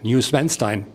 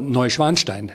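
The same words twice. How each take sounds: First: The name is pronounced the English way. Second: The name is pronounced the German way.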